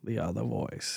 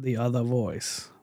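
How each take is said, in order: First: Low soft New York imitation; New York accent on other, quietly. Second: Slow imitation with New York accent. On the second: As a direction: say other the New York way, slowly. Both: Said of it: "it's got a thick New York accent".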